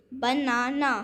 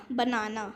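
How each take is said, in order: First: बनाना drawn out as ब, ना and ना; syllable by syllable. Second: Said in the usual way. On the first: Shown as a demonstration. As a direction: tap out each beat of banana. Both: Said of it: "यहाँ पर words के syllable given हैं".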